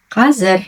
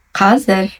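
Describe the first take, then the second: No difference in how they are said.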